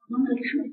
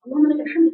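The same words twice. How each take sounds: First: Soft murmured praise; quiet whispered-down praise; soft prayer. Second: Full voice, stress on الحمد; firm praise. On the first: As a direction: breathe the praise softly. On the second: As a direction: lift the voice on الحمد. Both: Shown as a demonstration. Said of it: "تصبحي كده من النوم تقولي".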